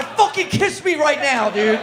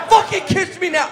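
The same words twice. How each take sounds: First: Said in the usual way. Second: Loud, high, yelled demand; shouted demand. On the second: Acted. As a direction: bellow it at him. Repeated as a shout.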